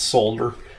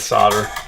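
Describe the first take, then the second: First: The L sound is clearly pronounced. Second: The L sound is left silent. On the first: The speaker calls it right. "start pronouncing it solder" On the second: The speaker calls it wrong. "instead of solder"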